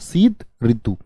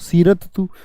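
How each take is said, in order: First: The r sound comes after the t sound. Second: The r sound comes before the t sound. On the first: The speaker calls it right. "शीत ऋतु होता है" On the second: The speaker calls it wrong. "सीरत तू थोड़ी होता है"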